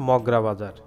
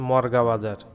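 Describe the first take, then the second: First: The r sound comes after the g. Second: The r sound comes before the g. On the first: The speaker calls it right. "প্রকৃত উচ্চারণ হবে" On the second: The speaker calls it wrong. "অনেকেই আবার ভুল করে বলে থাকেন"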